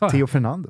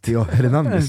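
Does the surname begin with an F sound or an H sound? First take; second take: F sound; H sound. First: The surname begins with an F sound. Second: The surname begins with a soft H sound. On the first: The speaker calls it wrong. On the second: The speaker calls it right.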